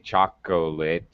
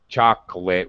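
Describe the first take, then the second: First: The middle syllable is fully pronounced. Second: The middle syllable is dropped. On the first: The speaker calls it wrong. "we don't say" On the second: The speaker calls it right. "Just like uh"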